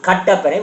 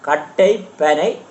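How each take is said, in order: First: The two words run together into one. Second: The two words are said as separate words.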